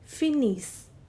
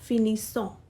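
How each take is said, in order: First: The word ends on the s sound, ending silent. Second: The word ends with an extra vowel ending sounded. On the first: The speaker calls it right. "So its pronunciation will be finis" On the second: The speaker calls it wrong. "not finissant"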